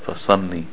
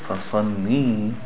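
First: The final vowel is short. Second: The final vowel is long. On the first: A man is being commanded. The speaker calls it right. "pray to your Lord" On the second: A woman is being commanded. The speaker calls it wrong. "If you make it a ya"

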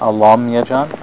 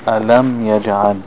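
First: The L sound is pronounced thick and heavy. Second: The L sound is pronounced thin and light. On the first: The speaker calls it wrong. "not alam yajal" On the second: The speaker calls it right. "always going to be thin"

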